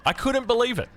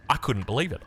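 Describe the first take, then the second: First: "couldn't" pitched much higher in disbelief. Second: Said in the usual way. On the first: Real, not acted. Retelling mum's steak ban to viewers, higher-pitched disbelief. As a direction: repeat it, now outraged and incredulous.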